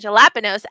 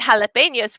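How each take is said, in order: First: The word starts with a J sound. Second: The word starts with an H sound. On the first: The speaker calls it wrong. "We don't say" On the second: The speaker calls it right. "It makes the sound like an English H"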